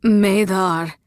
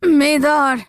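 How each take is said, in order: First: Cry. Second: Higher, louder calling out her name; loud desperate call; anguished cry. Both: A narrator's reading. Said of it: "the man cried".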